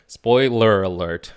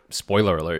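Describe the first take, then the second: First: SPOILER ALERT drawn out, loud and higher; emphatic announcement. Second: Said in the usual way. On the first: Real, not acted. Restarts with deliberate emphasis after stumble.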